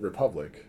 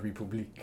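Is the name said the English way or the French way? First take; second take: English; French. First: The name is said the plain English way. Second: The name is said with a French-style accent. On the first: "I think you just pronounce it Republic" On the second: "But in my brain, I'm like, a republique"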